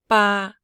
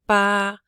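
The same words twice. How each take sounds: Both takes have the same delivery.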